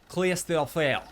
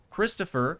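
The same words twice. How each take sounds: First: It is said with a put-on French accent. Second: It is said in his plain English accent.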